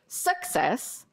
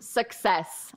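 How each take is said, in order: First: The stress is on the first syllable. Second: The stress is on the second syllable. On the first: The speaker calls it wrong. "Don't say success because it sounds like other words" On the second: The speaker calls it right. "It's the second syllable here"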